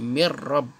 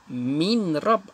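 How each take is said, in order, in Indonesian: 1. Bunyi n melebur ke dalam bunyi r setelahnya. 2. Bunyi n dibunyikan dengan jelas sebelum r. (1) "Memasukkan huruf mim dengan ra. Jadi mir rab" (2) "asalnya min rab"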